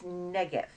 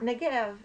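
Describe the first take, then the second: First: "Negev" said NEH-gev, front stressed; "Negev" with a strong NEG and a light ending; accent on first syllable. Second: "Negev" said neh-GEV, end stressed; "Negev" with a light start and a heavy GEV; accent on last syllable. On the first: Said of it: "it's Negev". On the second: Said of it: "it's not Negev". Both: Shown as a demonstration.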